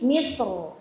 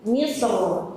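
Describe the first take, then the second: The two takes are said the same way.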